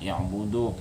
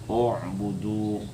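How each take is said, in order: First: The first vowel is an 'i' sound. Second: The first vowel is an 'u' sound. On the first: The speaker calls it wrong. "Bukan i'budu. ... salah baca aja" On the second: The speaker calls it right. "U'budu, yalah"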